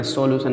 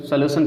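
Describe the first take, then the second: First: "सॉल्यूशन" with a full O, so-lu-shan; गलत उच्चारण. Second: Said in the usual way. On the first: Shown as a demonstration. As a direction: open "सॉल्यूशन" with a clear "so". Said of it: "नहीं पढ़ते हैं". ("सॉल्यूशन" को सो-लू-शन बोलकर) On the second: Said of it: "सॉल्यूशन पढ़ते हैं".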